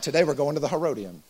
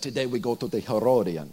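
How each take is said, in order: First: It is said in a plain, ordinary voice. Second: It is said in an exaggerated put-on voice.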